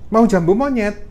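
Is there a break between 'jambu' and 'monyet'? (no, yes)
no. The words 'jambu monyet' run together without a break. Someone is offered a type of fruit. The speaker calls it right.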